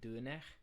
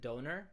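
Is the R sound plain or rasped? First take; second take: rasped; plain. First: The R is rasped and the O rounded. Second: The R is plain and the O ordinary. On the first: The speaker calls it right. "the R is more like a Frenchy kind of R. It's more rasped" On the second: The speaker calls it wrong. "some people pronounce it doner"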